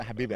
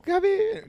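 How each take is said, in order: First: "Habibi" said lower and softer; "Habibi" dropped low and quiet. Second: "Habibi" squeaked much higher; "Habibi" called out high and cute. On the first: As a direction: correct it: "Habibi" low and soft. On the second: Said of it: "Claire's like". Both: Retold or imitated.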